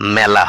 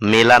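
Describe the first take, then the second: First: The first vowel is an open 'æ' sound. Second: The first vowel is a close 'e' sound. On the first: The speaker calls it right. "আকৃযুক্ত একারের জন্যই ... মেলা হবে" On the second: The speaker calls it wrong. "মেলা না হয়ে"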